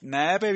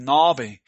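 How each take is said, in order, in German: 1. Der erste Vokal klingt wie deutsches ä. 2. Der erste Vokal klingt wie deutsches a. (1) "Ist übrigens nicht Nabe, wie viele dann lesen. Das Ä ist kein Ä" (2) "das ist ein A. Ja, das ist Nabe"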